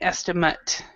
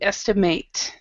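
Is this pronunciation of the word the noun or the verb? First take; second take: noun; verb. First: It is pronounced as the noun form. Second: It is pronounced as the verb form. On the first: It names a guess of an amount. "Otherwise, it's an estimate" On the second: It means to guess an amount. "When it is a verb, we say to estimate"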